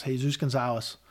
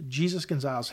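First: "Jesus" said Spanish-style, hay-SOOS; Spanish pronunciation. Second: "Jesus" said English-style, JEE-zus; English pronunciation. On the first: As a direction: say "Jesus" with an H sound, stressed at the end. Corrects name to Spanish form. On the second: Name said, then self-corrected. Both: Shown as a demonstration.

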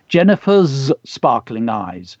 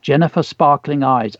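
First: Slow, with the end of "Jennifer's" drawn out; deliberate test reading. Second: Said in the usual way. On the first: Shown as a demonstration. Teacher rereads to think about an edit, slow and deliberate on "Jennifer's". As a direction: linger on the final z of "Jennifer's", then "sparkling eyes". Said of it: "Let's have a think". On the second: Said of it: "I think we need to edit that".

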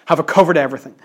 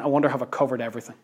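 First: Louder, more open repeat of the question; Paul checking himself. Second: Quick, softer aside as if thinking; musing to himself. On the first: Paul checking he left nothing out, questioning aloud. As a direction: ask it out, fuller than a private thought. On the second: Paul pausing after writing the verse, musing. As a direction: wonder it privately, fast and low-key. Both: Retold or imitated. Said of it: "imagine him pausing ... and thinking".

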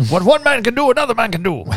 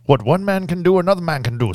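First: High, loud, hammed-up movie quote; Anthony Hopkins impression. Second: Anthony Hopkins. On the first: Quoting a movie line to his podcast friend, hammed-up and loud. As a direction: belt the line like a rousing movie hero. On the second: Retold or imitated. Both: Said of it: "That was my best Anthony Hopkins".

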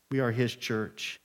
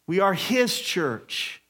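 First: Dropped low and soft, "We are his church."; quiet repeat. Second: Slow, with his leaned on; stress on his. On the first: Pastor repeats to the congregation, now soft and low. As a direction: say it again softly and lower. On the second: Pastor tells the church whose it is, stressing "his". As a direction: land on "his". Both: Shown as a demonstration.

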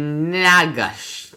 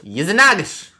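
First: "Yezinagosh" drawn out slowly, higher and louder; sounded out. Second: "Yezinagosh" in one loud, high burst. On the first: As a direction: stretch every syllable of "Yezinagosh". Sounding out a foreign place name. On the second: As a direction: blurt out "Yezinagosh" whole. Repeats the name all at once. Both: Shown as a demonstration.

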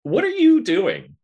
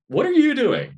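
First: Exclaiming. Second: Much higher, louder disbelieving cry; incredulous shriek. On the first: Calling out to viewers. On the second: Calling out to viewers again. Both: Acted.

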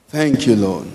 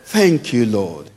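The two takes are said the same way.

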